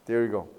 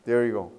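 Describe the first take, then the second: No difference in how they are said.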